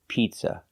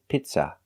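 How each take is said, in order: First: The first vowel is a long ee sound. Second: The first vowel is a short i sound. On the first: The speaker calls it right. "The first vowel is a long E, like green beans" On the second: The speaker calls it wrong. "We don't use the short sound I like milk"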